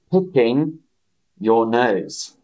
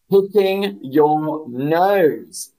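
First: Said in the usual way. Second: "Picking your nose" said very slow, "Picking" stressed; slow model. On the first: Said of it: "split take". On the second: Shown as a demonstration. Teacher modelling "Picking your nose" for the chat, very slow. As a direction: drag it out, lean on "Picking". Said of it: "teacher models phrase".

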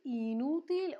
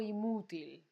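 First: "inútil" said with an N after the first i; N option. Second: "inútil" said with m in place of n, as "imútil"; M option. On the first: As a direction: offer "inútil" with a clear n sound. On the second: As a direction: swap the n of "inútil" for an m. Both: Shown as a demonstration. Quiz offers N versus M option.

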